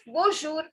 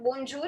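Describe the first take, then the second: First: The n sound is not pronounced. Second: The n sound is clearly pronounced. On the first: The speaker calls it right. "It is bonjour" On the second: The speaker calls it wrong. "It is not bonjour"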